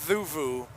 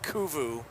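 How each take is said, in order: First: The word begins with a th sound. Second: The word begins with a k sound. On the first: The speaker calls it right. "it's pronounced Thuvu" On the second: The speaker calls it wrong. "not Kuvu"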